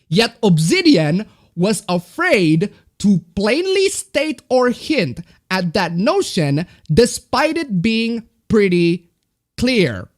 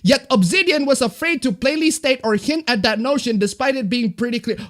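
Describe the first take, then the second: First: It is read slowly. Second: It is read at normal speed.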